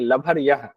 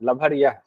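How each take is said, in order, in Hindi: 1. बीच का व्यंजन साँस वाली 'bh' ध्वनि है। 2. बीच का व्यंजन साँस वाली 'bh' ध्वनि है।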